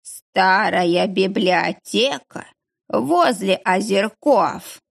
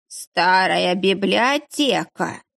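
First: Very slow drowsy slurring; mumbling half asleep, slurred; slurred mumble. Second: Slow, slurring drowsy mumble; mumbling half asleep, slurred. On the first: (бормочет, засыпая) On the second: (бормочет заплетающимся языком) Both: A narrator's reading. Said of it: "пробормотал Кукушкин заплетающимся языком".

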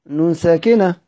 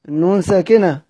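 No difference in how they are said.

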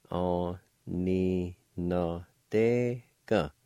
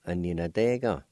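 First: Aninadega stretched syllable by syllable, very slowly. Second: Said in the usual way. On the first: Shown as a demonstration. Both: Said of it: "It's pronounced like this".

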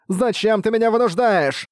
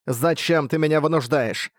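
First: Hysterical shriek. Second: Hysterical voice. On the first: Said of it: "Под этот резкий визг". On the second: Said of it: "зазвучал истеричный голос". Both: A narrator's reading.

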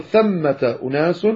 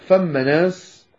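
First: "ثمة أناس" with th, fully voweled as thammata unas; correct ث. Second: "فم ناس" slowly, with f for th, as famma nas; dialect f. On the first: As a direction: say "ثمة أناس" in careful classical form. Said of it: "بدل أن يقول ثمة أناس". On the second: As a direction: show the slurred dialect form "فم ناس" with f. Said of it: "يقول فم ناس". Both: Shown as a demonstration.

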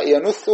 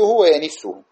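First: "ينثه" as yanuththu, u after the nun; damma on the nun. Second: "وينثه" as wa-yaniththu, i after the nun; kasra on the nun. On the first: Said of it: "ينث قياسا". (نطق "ينثه" بضم النون) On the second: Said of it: "شذوذا". (نطق "وينثه" بكسر النون) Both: Shown as a demonstration.

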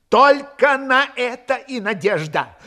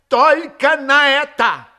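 First: Raised, slow, emphatic hope; fervent insistence. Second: High, loud, slow desperate insistence; fervent climax. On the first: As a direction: lean slowly on the last hope. Desperate officer repeats his last hope. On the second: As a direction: push the repeat higher and louder. Repeat, higher and louder. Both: A narrator's reading.

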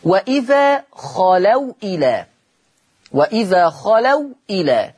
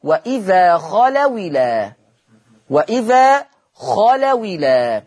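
First: Slow chanted reading before the rule is applied; measured Quranic reading of خلوا إلى; Quranic recitation. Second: Slow recitation, خلوا إلى with the waw taking a kasra; naql demo. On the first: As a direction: recite وإذا خلوا إلى slowly, waw still silent. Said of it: "هشيل الهمزة". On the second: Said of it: "فلما أجي أتلفظ بها". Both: Shown as a demonstration.

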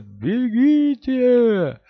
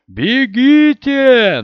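First: Stretched high desperate yell. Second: Loud desperate shout. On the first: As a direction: cry it out loud and slow. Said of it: "но даже в вопле можно было разобрать". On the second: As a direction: yell it high and drawn out. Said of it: "и Том закричал". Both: Acted.

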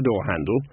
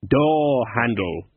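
First: Said in the usual way. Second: Drawn-out, very slow naming; slow puzzling-out. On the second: A narrator's reading. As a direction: stretch each word as if that might help. Baffled dwarf names it aloud.

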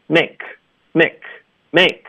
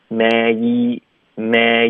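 First: "make" short, with a tight vowel like "mek"; jaw barely moving. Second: "make" drawn out with a wide gliding ay; jaw dropped wide. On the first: Teacher imitating students' mistake, "make" with a stiff jaw. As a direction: cut the glide short in "make". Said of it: "有的学生不怎么动下颚". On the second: Teacher showing mouth movement, "make" stretched and open. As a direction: drop the jaw through "make", slowly. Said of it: "注意我的嘴". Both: Shown as a demonstration.

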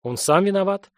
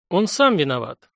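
First: Said in the usual way. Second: Сам hit harder than the rest; stress on сам. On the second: Acted. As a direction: lean on the word сам. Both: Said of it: "голосом выделяя ключевое слово".

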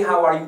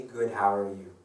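First: Breezy greeting. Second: Said in the usual way. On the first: Retold or imitated. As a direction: throw the greeting out loudly in passing. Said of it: "you say". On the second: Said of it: "like a reaction".

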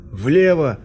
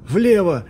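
First: Loud, higher yell; shout. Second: High, loud yell; louder shout. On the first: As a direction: bellow the direction. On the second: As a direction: scream it urgently. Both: A narrator's reading. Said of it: "заорал Полнов".

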